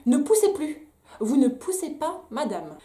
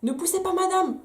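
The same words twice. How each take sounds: First: Higher, louder imitation of the midwife's command; mock stern order. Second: Much higher, mocking midwife command; mock shrill order. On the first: Mother imitating the midwife telling her not to push, mock stern. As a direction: bark the order like a strict midwife. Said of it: "elle me dit". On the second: Mother mocking the midwife's order to stop pushing. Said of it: "Bref, donc".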